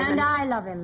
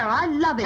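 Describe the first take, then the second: First: "I" stressed against the other's claim. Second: "love" leaned on in a higher voice; stress on love. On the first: Wife answering her rival's claim, stress on "I". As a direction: counter the claim, leaning on "I". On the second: Woman defying her rival over the man, stress on "love". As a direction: declare it, landing on "love". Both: Acted.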